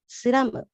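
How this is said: It has three syllables ending in mu.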